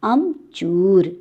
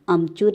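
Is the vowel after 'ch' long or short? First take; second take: long; short. First: The vowel after ch is a long u. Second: The vowel after ch is a short u. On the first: The speaker calls it right. "च दीर्घउकार।" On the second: The speaker calls it wrong. "अ म च ह्रस्वकार, ये गलत है।"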